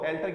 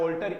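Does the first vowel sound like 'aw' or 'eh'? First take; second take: eh; aw. First: The first vowel sounds like 'eh'. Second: The first vowel sounds like 'aw'. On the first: The speaker calls it wrong. "एल्टर की बजाय" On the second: The speaker calls it right. "ऑल्टर ego"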